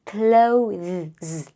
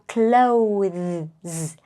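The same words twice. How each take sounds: First: A 'th' sound is heard before the final s. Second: The same.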